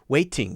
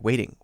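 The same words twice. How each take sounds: First: The middle consonant is a heavy D sound. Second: The middle consonant is a light D sound. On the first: The speaker calls it wrong. "instead of" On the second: The speaker calls it right. "It's a very light D sound"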